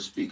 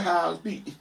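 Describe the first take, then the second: First: Said in the usual way. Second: "speak" high and slurred, Atlanta mumble-rap accent; imitated mumble accent. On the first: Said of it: "So if I say the word speak". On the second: Shown as a demonstration. Mocking rappers who copy Atlanta talk, high mumbled accent. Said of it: "I'm not gonna be like".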